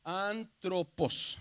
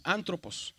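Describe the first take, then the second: First: ANTROPOS stretched syllable by syllable; slow teaching readout of antropos, each syllable held; sounded out slowly. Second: Said in the usual way. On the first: Shown as a demonstration. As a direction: say "antropos" very slowly, in separate parts. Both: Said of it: "se dice como una R".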